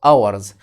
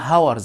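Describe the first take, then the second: First: The word starts with a vowel, no h. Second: The word starts with an audible h sound. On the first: The speaker calls it right. "ال H silent يعني بكتبها بس إيه؟ ما بنطقهاش" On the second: The speaker calls it wrong. "مش هقول hours"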